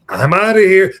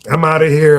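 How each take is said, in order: First: It is said with more force and emphasis. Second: It is tossed off lightly, without emphasis. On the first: The exit is made into a noticeable moment. "sometimes I'll say it with more emphasis" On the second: The line is a throwaway exit remark. "I just threw it away when I said I'm, I'm out of here"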